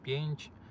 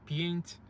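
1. Слово закінчується м'яким звуком, схожим на «ч». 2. Слово закінчується твердим звуком, схожим на «ц». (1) "А потрібно все закінчувати на" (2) "вони роблять закінчення «ць», а не «ч»"

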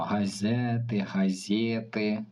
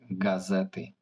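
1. Перший приголосний м'який, а не твердий. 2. Перший приголосний - тверда г. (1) "Не кажемо газети" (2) "Тверда Г. Тверде «з» і закінчення «ти»"

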